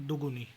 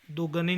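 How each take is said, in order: First: Said in the usual way. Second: दुगनी with a after g; mispronunciation. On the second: Shown as a demonstration. (दुगनी, ग पर अ) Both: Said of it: "नहीं".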